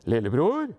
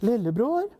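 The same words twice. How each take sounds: First: Father's darker-toned call, rising at the end. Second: Higher-pitched mother's call, rising at the end; light voice. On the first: Father calls lillebror in the dark, dark voice. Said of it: "så var det en mørk stemme". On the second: Mother calls lillebror in the dark, light voice. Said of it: "Det var en lys stemme først". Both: A narrator's reading.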